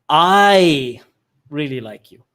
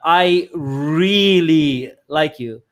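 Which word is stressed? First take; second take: I; really. First: The word 'I' carries the stress. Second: The word 'really' carries the stress. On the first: The speaker likes the listener even if nobody else does. "I'm saying I like you, nobody else does" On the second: The speaker likes the listener a lot. "if I emphasize uh, ... I like you a lot"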